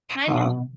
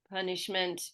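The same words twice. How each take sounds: First: The first vowel is a full, open ah. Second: The first vowel is a small, reduced uh. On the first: The speaker calls it right. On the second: The speaker calls it wrong.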